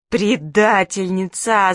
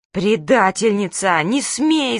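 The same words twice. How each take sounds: First: Slow, tearful drawn-out accusation; crying. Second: Slow, loud yell of betrayal. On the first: Manka cries at the friend who told on her. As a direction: drag it out through tears. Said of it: "заплакала Манька". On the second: Manka yells at her friend for telling mum. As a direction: bellow it at the traitor. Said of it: "завопила Манька". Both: Acted.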